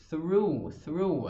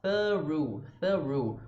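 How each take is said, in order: First: "through" with clear TH gliding into "roo"; tongue-on-teeth TH. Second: "Through" broken down as "thuh-roo"; split TH-ru. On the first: Teacher showing the TH in "through", careful articulation. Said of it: "da língua no dente". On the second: Teacher breaking "through" into its two sounds, exaggerated articulation. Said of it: "depois o som do ru". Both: Shown as a demonstration.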